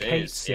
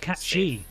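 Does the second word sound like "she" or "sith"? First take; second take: sith; she. First: The second word ends with a "th" sound. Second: The second word ends with an "ee" sound. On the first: The speaker calls it wrong. "I read it as Kate Sith forever. I'm like, no, that's not it" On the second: The speaker calls it right. "It's cat she"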